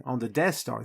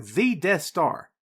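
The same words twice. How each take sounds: First: Said in the usual way. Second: "the" said long as "thee", drawn out for emphasis; slow it right down and lean on "the"; stress on THE. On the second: Real, not acted. Repeats phrase to underline it.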